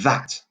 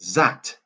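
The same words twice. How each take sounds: First: The first sound has the tongue between teeth. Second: The first sound is a z-like buzz. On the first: The speaker calls it right. "put your tongue between your teeth" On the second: The speaker calls it wrong. "sometimes people say that"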